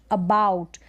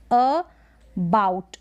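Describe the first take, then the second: First: अबाउट said in one piece; lower-pitched, unbroken अबाउट; blended word. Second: अबाउट slowly as "uh, bout"; broken in two. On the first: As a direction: join अबाउट with no break. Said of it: "इसको भी break कर सकते हैं". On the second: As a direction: pause after the first vowel of अबाउट. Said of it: "इसके दो टुकड़े हो रहे हैं". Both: Shown as a demonstration.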